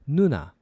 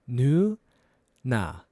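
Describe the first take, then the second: First: It is said faster. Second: It is said slowly.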